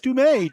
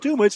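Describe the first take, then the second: First: The name ends with an 'ay' sound. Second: The name ends with an 'ah' sound. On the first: The speaker calls it right. "it's Dumay" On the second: The speaker calls it wrong. "It's not Dumas"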